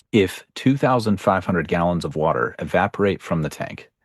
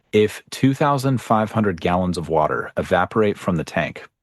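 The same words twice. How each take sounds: No difference in how they are said.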